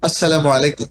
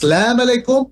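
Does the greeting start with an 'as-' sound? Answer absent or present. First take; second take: present; absent. First: The greeting starts with a full 'as-salamu' sound. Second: The greeting starts with a clipped 'salam' sound. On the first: The speaker calls it right. "বিশুদ্ধ উচ্চারণটা" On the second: The speaker calls it wrong. "এটা আরবি উচ্চারণে গলত"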